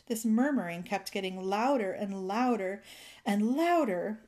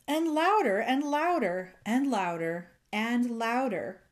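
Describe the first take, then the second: First: Said in the usual way. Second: A crescendo of louders; building louder. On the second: A narrator's reading. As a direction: voice swells louder on each louder. Read-aloud builds louder and louder.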